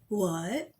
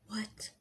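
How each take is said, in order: First: It is said in a normal voice. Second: It is said in a put-on Michael voice.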